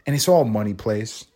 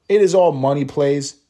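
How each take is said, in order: First: Said in the usual way. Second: It is all money plays, hitting "It" and "is" louder; emphatic restatement. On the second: Shown as a demonstration. Host repeats his point to listeners, louder and emphatic.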